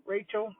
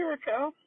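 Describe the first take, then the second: First: Rachel said as RAY-chel, English style; corrected name. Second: Raquel said as ra-KEL, Spanish style; wrong name. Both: Real, not acted. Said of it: "I keep saying Raquel".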